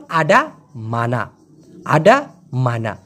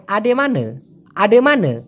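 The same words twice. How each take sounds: First: "আডা, মানা" slow and low, full a endings; correct pronunciation. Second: "আডে মানে" with schwa endings, falling; colloquial pronunciation. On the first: Teacher correcting the colloquial form, slow correct pronunciation. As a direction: separate "আডা" and "মানা" slowly with open a vowels. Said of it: "কিন্তু শুদ্ধ উচ্চারণ". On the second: Teacher showing how it usually sounds, colloquial pronunciation. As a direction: say "আডে মানে" with both last vowels as uh. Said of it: "প্রায় শুনতে মনে হয়". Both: Shown as a demonstration.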